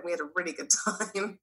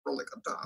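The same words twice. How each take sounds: First: Said in the usual way. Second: Breathy whispered aside, much softer and lower; sly whispered afterthought; whispered echo. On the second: Acted. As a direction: drop to a whisper for the repeat. Whispered echo of own line.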